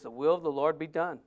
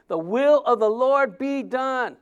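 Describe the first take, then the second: First: Softer and lower, "will" gently weighted; quiet, lowered rereading; hushed scripture quote. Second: The will of the Lord be done, drawn out slowly with weight on "will"; slow, stressed scripture reading; solemn slow reading. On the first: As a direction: let The will of the Lord be done drop to a hush. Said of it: "Verse fourteen says". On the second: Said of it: "the bottom of fourteen". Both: Shown as a demonstration.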